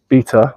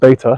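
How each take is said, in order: First: It is said the British way. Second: It is said the American way.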